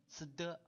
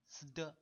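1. 这个组合结尾像 'de' 的音。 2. 这个组合结尾像 'de' 的音。

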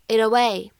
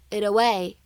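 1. 这两个词连读，t音是闪音。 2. 这两个词连读，t音是闪音。

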